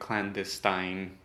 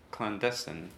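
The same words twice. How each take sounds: First: The last syllable has a long 'eye' vowel. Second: The last syllable has a short 'i' vowel. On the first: The speaker calls it wrong. "I might have pronounced it clandestine at once" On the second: The speaker calls it right. "now I know it's clandestine"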